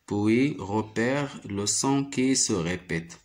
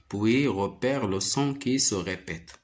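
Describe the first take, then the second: No difference in how they are said.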